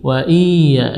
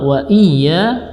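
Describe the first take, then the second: First: The vowel before the y is stretched long. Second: The vowel is short with a doubled y. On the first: The speaker calls it wrong. "dipanjangkan seolah-olah ada ya sukun di situ" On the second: The speaker calls it right. "yang benar adalah"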